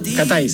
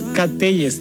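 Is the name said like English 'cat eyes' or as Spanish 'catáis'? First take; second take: catáis; cat eyes. First: The name sounds like Spanish 'catáis'. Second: The name sounds like English 'cat eyes'. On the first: The speaker calls it right. "así se pronuncia" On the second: The speaker calls it wrong. "Cateyes, dije yo"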